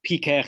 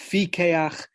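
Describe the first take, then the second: First: The word begins with a hard p sound. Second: The word begins with a soft f sound. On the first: The speaker calls it wrong. "it's not pikeach" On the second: The speaker calls it right. "it's fikeach"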